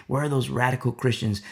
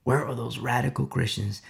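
No difference in how they are said.

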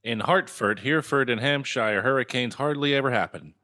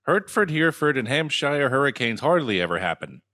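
First: "Hartford" said with "hart" for the first syllable; mispronounced Hertford. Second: "Hertford" with "hurt" for the first syllable; corrected Hertford. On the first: Misreading the tongue twister, "Hartford" with an "ar". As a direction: say "Hartford" with an open "ar" vowel. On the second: Retrying after a friend's correction, "Hertford" with an "er". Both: Real, not acted. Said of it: "But it's Hertford".

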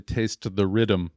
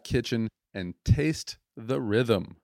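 First: Said in the usual way. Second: Slow "taste the rhythm" with a hint of a Jamaican lilt; Jamaican accent attempt. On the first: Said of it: "it's actually". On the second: Shown as a demonstration. Host trying the slogan with a Jamaican accent. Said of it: "sounds so much cooler when you say it with an accent".

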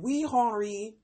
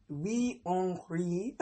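First: Said in the usual way. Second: Slow, failed French accent on Wee Henri. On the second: Shown as a demonstration. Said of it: "my French accent just went to trash".

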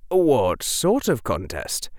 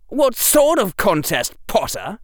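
First: Said in the usual way. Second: High, loud, arch question; high-pitched mocking inquiry; loud drawl. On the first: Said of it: "He couldn't say". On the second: A narrator's reading. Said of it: "in the loudest drawl Harry had ever heard".

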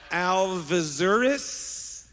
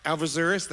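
First: Alvizures spelled out very slowly, syllable by syllable, ending on a questioning rise; careful name. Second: Alvizures said again at normal speed with a short rise, as a check; quick retry. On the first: Pastor carefully sounding out a guest's surname, unsure. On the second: Pastor retrying a guest's surname, checking it. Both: Shown as a demonstration. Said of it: "Am I saying it right?".

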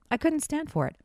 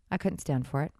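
First: "couldn't" hit harder, pitched higher; emphatic repeat. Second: Said in the usual way. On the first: Shown as a demonstration. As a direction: lean on "couldn't" with rising indignation. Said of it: "repeated higher". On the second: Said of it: "repeated for emphasis".

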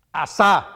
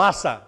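First: Asa with the last A stressed, "a-SÁ"; stress on final A. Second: Asa with the first A stressed, "Á-sa". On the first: Preacher showing the congregation a variant of the king's name, Asa stressed at the end. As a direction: hit the second syllable of Asa hard. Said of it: "con acento en la A". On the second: Preacher offering the other reading of the king's name, Asa stressed at the start. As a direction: hit the first syllable of Asa, let the second drop. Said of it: "La latinoamericana dicen Asa". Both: Shown as a demonstration.

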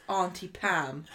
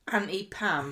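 First: "Auntie Pam" with a long southern ah, as in aunt; slow, careful "ahn-tee" for Auntie; long-vowel Auntie. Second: "Auntie Pam" with a short flat a, as in ant; short-vowel Auntie. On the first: Southerner correcting the name, Auntie with a long ah. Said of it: "'Cause I wanna be like". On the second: Southerner slipping on a name, Auntie said as "anty". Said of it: "tongue twister for me with my southern accent". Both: Shown as a demonstration.

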